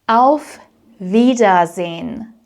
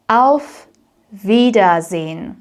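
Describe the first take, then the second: No difference in how they are said.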